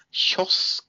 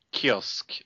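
First: "kiosk" said the Norwegian way, with a "sh" start; "kiosk" as one Norwegian word, opening on "sh"; Norwegian pronunciation. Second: Said in the usual way. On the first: Shown as a demonstration. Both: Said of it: "something we call kiosk in Nor".

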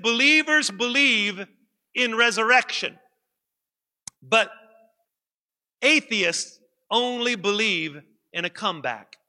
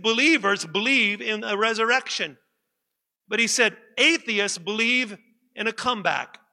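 First: Slow, spaced, each phrase set apart by long pauses. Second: Said in the usual way. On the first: Shown as a demonstration. Pastor repeating the atheist's quote for emphasis, slow and paused. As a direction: let the pauses land before "atheists only believe in a comeback". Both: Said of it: "I'm gonna say that again".

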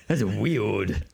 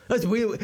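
First: Speech-impaired superhero, muddled R in "weird"; Batman. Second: High, speech-impaired voice; Bruce Wayne. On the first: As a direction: deny it in the lower superhero register. Batman denies knowing Bruce. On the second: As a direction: slip into a silly high register, muddling "weird". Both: Acted.

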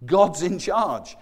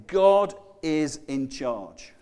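First: God's in charge repeated very slowly; slow, weighted repeat; slow emphatic stress. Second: God is in charge said very slowly, each word weighted; slow and deliberate; slow emphatic stress. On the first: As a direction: drive home God's in charge word by word. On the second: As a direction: lean hard on God and charge. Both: Shown as a demonstration. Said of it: "But what it's saying is".

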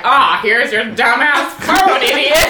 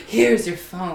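First: Loud, slow sarcastic jab. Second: Said in the usual way. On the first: Retold or imitated. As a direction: bite it out with sarcasm. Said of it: "like, sarcastic, like, biting comments". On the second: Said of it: "Instead of being like".

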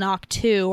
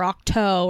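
First: Ahch-To said as "ock-too"; ahk-TOO pronunciation. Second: Ahch-To said as "ock-toe"; ahk-TOH pronunciation. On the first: Podcaster unsure of a planet's name, Ahch-To ending in "too". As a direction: end Ahch-To on an "oo" vowel. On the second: Podcaster offering the other option, Ahch-To ending in "toe". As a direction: end Ahch-To on an "oh" vowel. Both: Shown as a demonstration. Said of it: "however you pronounce it".

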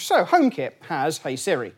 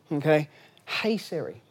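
First: Said in the usual way. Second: Hey Siri said slowly and evenly, as to a device; deliberate slow Hey Siri command; wake word call. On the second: Shown as a demonstration. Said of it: "that's mine listening".

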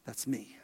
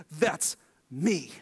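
First: Low, hushed repeat; hushed echo. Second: Low, weighty declaration; Jesus declaring himself. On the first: Preacher echoing Jesus's reveal in a soft hush. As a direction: let it fall away to a near whisper. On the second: Preacher voicing Jesus's reveal, low and weighty. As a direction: set it down firmly, like a revelation. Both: Retold or imitated.

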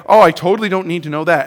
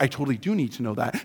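First: Said in the usual way. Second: Much softer and quicker, hushed; sudden realization. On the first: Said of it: "you're just like". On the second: Shown as a demonstration. Suddenly realizing the information matters, hushed. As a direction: drop the voice as it suddenly dawns on you. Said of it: "all of a sudden you're like".

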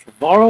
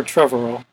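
First: Trevorrow with stress on the middle, "VAR"; pronounced truh-VAR-oh. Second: Trevorrow with stress up front, "TREV"; pronounced TREV-er-oh. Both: Shown as a demonstration. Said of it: "Is it Trevorrow or Trevorrow".

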